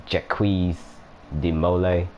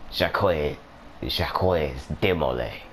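First: Jacques de Molay said the English way, hard J and Molay like "mo-lay"; English pronunciation. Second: French accent. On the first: Gamer showing viewers the English way to say it. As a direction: anglicize Jacques de Molay flatly. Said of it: "in English you're probably saying". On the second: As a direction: say Jacques de Molay like a hammed-up Frenchman. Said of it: "It's way better in French, or the French accent". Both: Shown as a demonstration.

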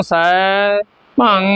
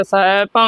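First: ਸੈਭੰ broken into "sai... bhang"; wrong split reading. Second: ਸੈਭੰ as one unbroken "saibhang"; joined reading. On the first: Teacher warning learners against splitting it, broken pronunciation. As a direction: pause inside ਸੈਭੰ, stretching the first half. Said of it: "ਨਹੀਂ ਪੜ੍ਹਨਾ". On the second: Teacher modelling for learners, joined-up pronunciation. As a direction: run ਸੈਭੰ together without a gap. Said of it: "ਇਕੱਠਾ ਪਾਠ ਹੈ". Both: Shown as a demonstration.

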